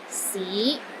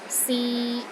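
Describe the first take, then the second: First: The pitch rises from low to middle. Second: The pitch stays level in the middle. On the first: "It starts low, then rises to the middle of your range" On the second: "a mid-tone"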